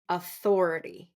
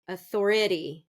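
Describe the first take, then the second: First: The stress is on the second syllable. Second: The stress is on the third syllable. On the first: The speaker calls it right. "authority is going to be second syllable stress" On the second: The speaker calls it wrong. "third th- syllable stress, and that would be incorrect"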